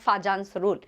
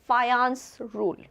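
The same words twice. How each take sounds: First: The middle consonant is an English j sound. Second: The middle consonant is a y sound. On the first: The speaker calls it wrong. "It's not Fajans rule. J is not pronounced as J" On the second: The speaker calls it right. "It is Fajans rule. It's Ya"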